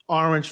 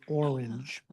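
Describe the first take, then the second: First: The word is said in a Boston accent. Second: The word is said in a plain accent.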